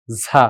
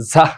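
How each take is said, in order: First: ঝা with an open ending and no h; ঝা said cleanly, without a final breath; correct ঝা. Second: ঝাহ with an audible h at the end; wrong ঝাহ. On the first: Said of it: "এখানে হচ্ছে ঝাহ লেখা আছে, এটা ঝা". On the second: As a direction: add a breathy h after ঝা. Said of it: "ঝাহ না কিন্তু". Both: Shown as a demonstration.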